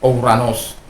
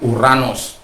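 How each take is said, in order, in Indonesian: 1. Vokal pertama diucapkan sebagai o plus u. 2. Vokal pertama diucapkan sebagai u biasa. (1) "saya sudah terbiasa mengatakan Ouranos" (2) "bacanya Uranos bukan Ouranos"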